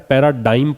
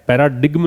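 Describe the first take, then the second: First: The word is said without a g sound. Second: The word is said with a g sound. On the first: The speaker calls it right. "पैराडाइम पढ़ना है। जी का यहाँ पे उच्चारण जो है वो ग नहीं होता है" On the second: The speaker calls it wrong. "पैराडिग्म नहीं पढ़ना है"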